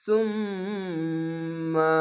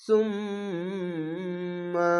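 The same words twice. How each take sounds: First: সুম্মা with the doubled m hummed long through the nose; ghunna nasal hold. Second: সুম্মা hummed long and soft through the nose on the ম্ম; ghunna nasal hold. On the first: Teacher demonstrates the obligatory ghunna on সুম্মা. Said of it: "এটি হচ্ছে ওয়াজিব গুন্না". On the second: Teacher repeats the ghunna on সুম্মা for students to copy. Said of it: "এরকম হবে". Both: Shown as a demonstration.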